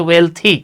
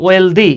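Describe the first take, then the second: First: ওয়েলথি with a clear th sound; the right way to say ওয়েলথি; correct pronunciation. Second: ওয়েলদি as learners often say it; wrong pronunciation. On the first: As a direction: say ওয়েলথি properly, with th. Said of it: "এটা হচ্ছে ওয়েলথি". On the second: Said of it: "ওয়েলদি না". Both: Shown as a demonstration.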